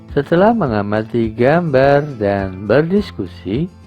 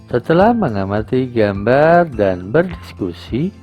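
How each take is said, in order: No difference in how they are said.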